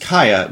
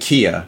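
First: The first vowel sounds like 'kai'. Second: The first vowel sounds like 'key'. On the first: This is how the name owner says it. The speaker calls it right. "pronounced Kaya" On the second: This is how the spelling looks. The speaker calls it wrong. "It looks like Kia"

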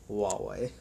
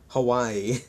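First: It is said with the company's own pronunciation. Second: It is said to sound like Hawaii. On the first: The speaker calls it right. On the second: The speaker calls it wrong.

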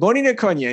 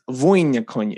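First: The first word starts with a B sound. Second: The first word starts with a V sound. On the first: The speaker calls it wrong. "I see the B. I don't suppress the urge to record that as a V" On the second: The speaker calls it right. "it's a V sound"

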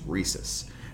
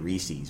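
First: The last syllable has a short vowel. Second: The last syllable has a long ee vowel. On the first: The speaker calls it right. "it's Reese's, you know?" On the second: The speaker calls it wrong. "They say Reese's, but there's no second fucking E the end of that word"

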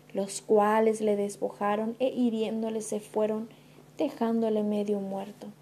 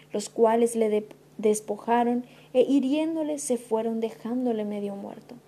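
The two takes are said the same way.

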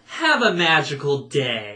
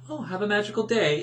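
First: It sounds snarky with a pointed emphasis. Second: It sounds friendly and genuine.

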